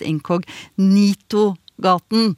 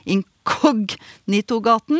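First: The stress is on the third syllable. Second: The stress is not on the third syllable. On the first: This is how people commonly say it. The speaker calls it wrong. "men som veldig ofte uttales" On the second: This is the street's actual name. The speaker calls it right. "heter Incognito-gaten"

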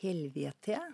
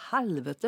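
First: The vowel is said closed, not open. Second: The vowel is said open, not closed. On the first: It is not very rude. "Det er liksom ikke så stygt" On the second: It is much ruder, coming from coarse folk speech. "med åpen vokal. Så er det mye verre"

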